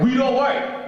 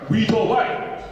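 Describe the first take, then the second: First: "weed" said with a clear final d, like the drug; heard as weed. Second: "wheat" said with a crisp final t; wheat, said right. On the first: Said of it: "Did he just say weed". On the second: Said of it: "He's a little bit impatient". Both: Retold or imitated.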